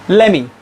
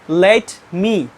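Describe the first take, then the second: First: The words run together without any pause. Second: There is a small pause between the words. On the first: "But the American people pronounce it" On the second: "Most of the non-native speakers give pause here. Non-native speakers pronounce"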